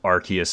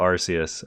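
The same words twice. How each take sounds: First: The C is said like a K. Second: The C is said like an S. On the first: This is the officially confirmed pronunciation. "they confirmed that Arceus is the way you pronounce it" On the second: This is how the speaker has always said it. "I've always pronounced the C like an S"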